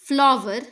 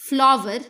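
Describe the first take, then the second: No difference in how they are said.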